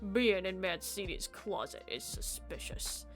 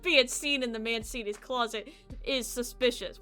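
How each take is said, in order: First: It is said in a put-on corpse voice. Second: It is said in his natural voice.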